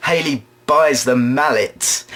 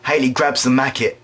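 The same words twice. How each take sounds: First: Said in the usual way. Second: "macket" with a k sound in place of the l; mispronounced mallet. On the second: Real, not acted. Comedian fumbles Haley grabbing the mallet, "macket" with a k. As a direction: slip into "macket" when meaning mallet. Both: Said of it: "I said it again".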